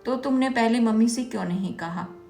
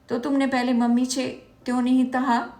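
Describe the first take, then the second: First: It is said clearly without a lisp. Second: It is said with a childish lisp. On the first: The speaker calls it right. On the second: The speaker calls it wrong.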